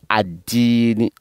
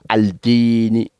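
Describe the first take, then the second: First: The L merges into a doubled D sound. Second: The L of the article is pronounced clearly. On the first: The speaker calls it right. "on dit ad-dini" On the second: The speaker calls it wrong. "on ne dit pas al-dini"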